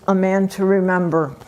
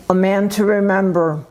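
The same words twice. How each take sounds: The two takes are said the same way.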